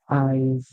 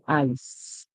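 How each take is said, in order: First: The word ends with a buzzing z sound. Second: The word ends with a hissing s sound. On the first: The speaker calls it right. "the S here makes it sound like Z" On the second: The speaker calls it wrong. "We don't say eyes. We don't make a s- sound for the S"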